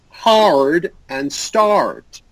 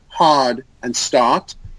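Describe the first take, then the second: First: The R sound is strong and clearly pushed. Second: The R sound is weak and barely pushed. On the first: The speaker calls it right. "the R before the D or before the T is very strong" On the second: The speaker calls it wrong. "It's not hard and start"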